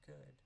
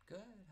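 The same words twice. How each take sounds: First: Said in the usual way. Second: Good. popped up high and bright; a bright, high Good. said for show; mock cheery good. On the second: Chirpy reply in retold greeting.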